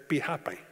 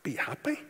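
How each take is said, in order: First: Said in the usual way. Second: Soft, rising question on "Be happy?"; sceptical question. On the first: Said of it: "Some people say it's". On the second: Retold or imitated. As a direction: question "Be happy?" as if that cannot be all. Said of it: "Is that all that it is?".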